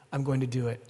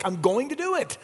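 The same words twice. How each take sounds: First: Said in the usual way. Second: "I'm going to do it" pitched much higher with a hit on "do"; "do" lifted high and hammered home; emphatic. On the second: Shown as a demonstration. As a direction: proclaim "do" with full force. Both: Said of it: "It's emphatic".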